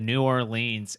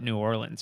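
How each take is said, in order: First: It is pronounced the way an outsider says it. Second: It is pronounced the way locals say it. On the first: A visitor said it. The speaker calls it wrong. "He said New Orleans" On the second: This is how locals say it. The speaker calls it right. "we call it New Orleans around here"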